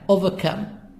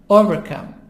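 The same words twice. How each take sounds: First: The R sound in 'over' is silent. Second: The R sound in 'over' is pronounced. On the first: "British, over, who makes the R silent"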